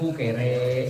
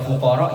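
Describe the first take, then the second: First: The final vowel is shifted to an 'e' sound. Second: The final vowel is an open 'a' sound. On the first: "kalau fuqara jadi kan fukere" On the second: "kalau imalah itu a tapi jadinya e"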